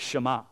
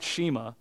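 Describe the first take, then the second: First: The word is said with Hebrew-style vowels. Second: The word is said in an anglicized way. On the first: The speaker calls it right. "Joe said it's Shema" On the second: The speaker calls it wrong. "I was pronouncing it like, you know, a Gentile. It's not Shema"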